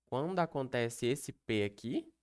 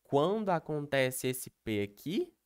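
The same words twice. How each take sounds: The two takes are said the same way.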